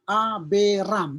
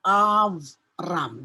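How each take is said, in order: First: It has three syllables with a vowel before r. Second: It has two syllables with no vowel before r. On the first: The speaker calls it wrong. "tidak lagi dibaca aberam. Aberam bukan" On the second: The speaker calls it right. "Ini dibaca dengan avram"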